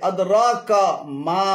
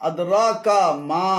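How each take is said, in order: The two takes are said the same way.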